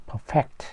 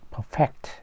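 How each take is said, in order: First: The stress is on the second syllable. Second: The stress is on the second syllable.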